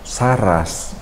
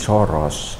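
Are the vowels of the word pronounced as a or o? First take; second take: a; o. First: Both vowels are pronounced as open a. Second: Both vowels are pronounced as rounded o. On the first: "yang saras" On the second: "diucapkan menjadi soros"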